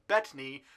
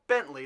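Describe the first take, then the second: First: It is said with no n before the t. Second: It is said with an n before the t. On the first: The speaker calls it right. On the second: The speaker calls it wrong.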